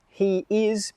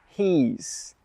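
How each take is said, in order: First: It is said as two separate full words. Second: It is said as one shorter contracted word. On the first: "two words become one shorter word" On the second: "two words become one shorter word"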